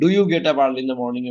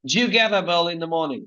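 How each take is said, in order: First: 'Do you' is said as two full separate words. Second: 'Do you' is blended into one short 'joo' sound.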